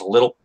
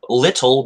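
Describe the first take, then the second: First: The middle t is softened. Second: The middle t is pronounced crisply.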